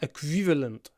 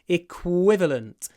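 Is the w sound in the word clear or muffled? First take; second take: muffled; clear. First: The w sound is weak and muffled. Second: The w sound is full and clear. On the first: The speaker calls it wrong. "If you don't lower your jaw, ... it doesn't sound right" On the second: The speaker calls it right. "you need to lower your jaw"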